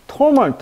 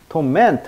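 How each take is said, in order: First: The stress is on the first syllable. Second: The stress is on the second syllable. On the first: It names suffering as a thing. "강세가 torment 하면 고통" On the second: It means causing someone suffering. "torment 하면 동사"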